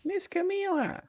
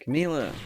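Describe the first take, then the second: First: Much higher, urgent call of her name; a squeaky desperate call. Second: Loud call of her name; calling out loud across the flooded room. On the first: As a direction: cry out her name up high. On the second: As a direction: shout her name into the dark. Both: Acted. Calling out to trapped girl.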